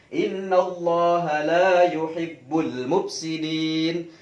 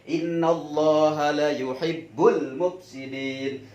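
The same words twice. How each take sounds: First: The vowel in 'la' is held long. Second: The vowel in 'la' is cut short. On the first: God does not love those who cause corruption. The speaker calls it right. "kalau dibaca panjang" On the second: God truly loves those who cause corruption. The speaker calls it wrong. "Kalau dibaca pendek"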